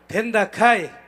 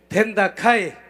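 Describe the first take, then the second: The two takes are said the same way.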